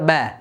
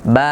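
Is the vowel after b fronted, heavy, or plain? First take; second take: fronted; plain. First: The vowel is fronted toward an 'e' sound. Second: The vowel is a plain, moderately open 'a'. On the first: The speaker calls it wrong. "বার বারিক উচ্চারণ করতে গিয়ে বা জবর বা এটা না বলে বলে যে" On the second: The speaker calls it right. "বার জবর বামে খালি আলিফ"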